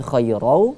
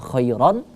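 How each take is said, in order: First: The ending merges into a w sound. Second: The word ends with a clear n sound. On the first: The speaker calls it right. "melebur langsung ke huruf waw" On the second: The speaker calls it wrong. "tidak kita baca khairan"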